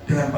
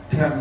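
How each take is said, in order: Both takes have the same delivery.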